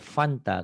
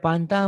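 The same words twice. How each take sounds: First: It starts with an F sound. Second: It starts with a P sound, Sundanese-style.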